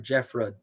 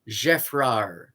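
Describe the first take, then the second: First: The final d sound is pronounced. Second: The final d sound is silent. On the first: It follows an English-style pronunciation. "If you anglicize it" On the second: It follows the original French pronunciation. "You don't pronounce the D at the end"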